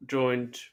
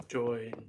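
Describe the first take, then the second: First: Said in the usual way. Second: Hushed, unvoiced whisper. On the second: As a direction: whisper it like a cue. Host prompts late co-host.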